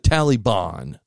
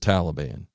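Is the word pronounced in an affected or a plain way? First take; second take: affected; plain. First: The word is given an affected, showy pronunciation. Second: The word is given its ordinary, plain pronunciation. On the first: It imitates someone trying to sound superior. The speaker calls it wrong. "as he said, the Taliban. None of us say it that way" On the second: It is the way most people say it. The speaker calls it right. "It's just Taliban"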